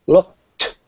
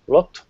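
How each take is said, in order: First: The final T is pronounced clearly and crisply. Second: The final T is soft and barely pronounced. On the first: This is precise, formal speech. "The T sound, right?" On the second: This is how one talks with friends. "if I'm softer"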